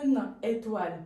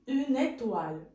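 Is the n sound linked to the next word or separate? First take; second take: separate; linked. First: The n is not linked to the next word. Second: The n is linked to the next word. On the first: The speaker calls it wrong. "on ne dit pas une étoile" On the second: The speaker calls it right. "on dit une étoile; le N passe ici"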